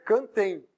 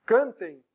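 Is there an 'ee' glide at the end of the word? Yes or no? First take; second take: yes; yes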